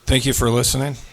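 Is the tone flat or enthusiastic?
flat. It is said in a flatter, less enthusiastic tone.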